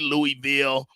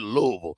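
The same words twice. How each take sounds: First: The city name is said the non-local way. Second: The city name is said the local way. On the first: This is how outsiders say it. "They don't say Louisville" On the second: This is how people from there say it. "They pronounce it Louisville"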